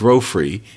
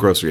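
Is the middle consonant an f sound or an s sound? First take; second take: f sound; s sound. First: The middle consonant is an f sound. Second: The middle consonant is an s sound. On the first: This is one person's personal habit. "grofry instead of nursery and grocery" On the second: This is how most people say it. "That is not the way other people she grew up around say nursery and grocery"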